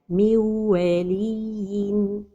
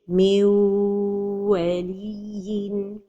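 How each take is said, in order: First: The merge is short with no nasal hum. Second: The merge is held long without nasal hum. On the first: "The mistake is to pronounce it idgham without ghunnah" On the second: "Or to give time to the idgham but without ghunnah. This is also a mistake"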